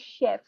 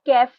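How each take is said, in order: First: The word begins with a sh sound. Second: The word begins with a k sound. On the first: The speaker calls it right. "We say chef" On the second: The speaker calls it wrong. "we do not pronounce kef"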